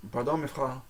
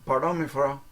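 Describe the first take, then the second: First: "mes frères" with the R rasped in the back of the throat; throaty R. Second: "mes frères" with the R kept out of the throat; less throaty R. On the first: Showing how I would say it, "mes frères" with a throaty R. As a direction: make the R in "mes frères" guttural. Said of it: "I would say it more throaty". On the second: Showing what you might say, "mes frères" without a throaty R. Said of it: "but I would say it more throaty". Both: Shown as a demonstration.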